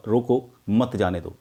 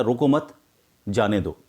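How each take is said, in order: First: रोको, short pause, then मत जाने दो together; pause after रोको. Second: रोको मत together, clear pause, then जाने दो; pause after मत. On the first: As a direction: break right after रोको. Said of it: "बोलते वक्त पॉज दिया तो ये हुआ". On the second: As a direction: hold a break after मत before जाने दो. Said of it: "थोड़ा सा पॉज देने से". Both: Shown as a demonstration.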